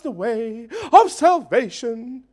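It is said in a reverent, respectful tone. The speaker honours the messengers and their message. The speaker calls it wrong. "If she said it in a reverential way"

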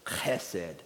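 It starts with a raspy Hebrew throat sound.

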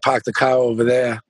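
Boston accent with the R sounds dropped.

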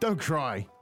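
It is said sternly, like a command. It is an order to stop crying. "It would sound more austere, almost like an order"

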